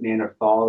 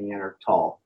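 First: The last syllable has a 'th' sound. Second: The last syllable has a plain 't' sound. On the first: "You can pronounce it Neanderthal" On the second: "or Neandertal"

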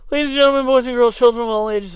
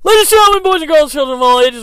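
First: It is said with little enthusiasm. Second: It is said with lots of enthusiasm.

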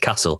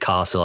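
First: It is said in a northern English accent. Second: It is said in a southern English accent.

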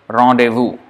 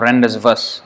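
First: It is pronounced the French way. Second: It is read as English spelling suggests. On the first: The speaker knows the word comes from French. The speaker calls it right. "this is coming from the French language, and then it is to be pronounced as rendezvous" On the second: The speaker does not know the word's origin. The speaker calls it wrong. "if you don't know how to pronounce it, anyone would say rendezvous"

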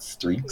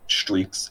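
First: The st sound is said the usual plain way. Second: The st sound has the Philadelphian changed quality. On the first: "it's not streaks" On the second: "when you send, like, streaks on Snapchat"

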